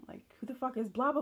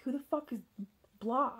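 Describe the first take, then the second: First: Higher, louder furious demand; angry repeated demand. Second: Raised, louder furious demand; angry confrontation. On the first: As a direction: press him again, heated. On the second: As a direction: confront him, higher and louder. Confronting partner about the messages. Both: Retold or imitated.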